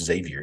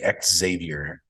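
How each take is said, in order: First: The name begins with a 'z' sound. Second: The name begins with an 'eks' sound. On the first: The speaker calls it right. "You pronounce the X like it's a Z" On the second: The speaker calls it wrong. "Some people say X Xavier"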